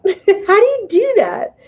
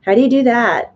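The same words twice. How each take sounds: First: High, slow, laughing repeat of the question. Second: Said in the usual way. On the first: Real, not acted. Repeats own question, then laughs.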